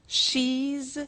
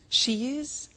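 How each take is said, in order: First: It is said as one contracted word. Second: It is said as two full words.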